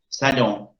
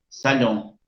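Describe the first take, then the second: No difference in how they are said.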